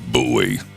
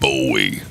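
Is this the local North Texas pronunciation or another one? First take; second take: local; other. First: The name is given its local North Texas pronunciation. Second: The name is given a non-local, outside pronunciation. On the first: This is how people from North Texas say it. The speaker calls it right. "we pronounce it Bowie" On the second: This is how people from elsewhere say it. The speaker calls it wrong. "not Bowie"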